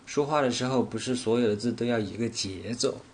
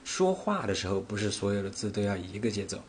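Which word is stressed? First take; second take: 节奏; 说话. First: The stress falls on the word 节奏. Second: The stress falls on the word 说话. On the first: It is about rhythm being the same, not intonation. "我分别把重点放在了说话，不是所有，节奏这三个词上" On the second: It is about speaking, not singing. "我分别把重点放在了说话，不是所有，节奏这三个词上"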